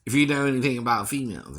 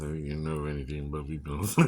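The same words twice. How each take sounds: First: Said in the usual way. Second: Much lower and softer, quick; quieter aside. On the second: Shown as a demonstration. Singer repeating the line as a low, soft knowing aside. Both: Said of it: "repeated line".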